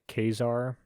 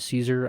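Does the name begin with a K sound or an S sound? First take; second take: K sound; S sound. First: The name begins with a K sound. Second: The name begins with an S sound. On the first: The speaker calls it right. "correct way to pronounce it is actually like Kazar" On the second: The speaker calls it wrong. "I'm gonna say Caesar"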